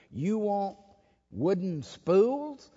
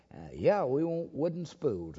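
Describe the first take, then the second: First: High, slow, disbelieving question; incredulous question. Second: Said in the usual way. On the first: Retold or imitated. Electric company man asks the pastor, incredulous. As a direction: stretch out spools in disbelief.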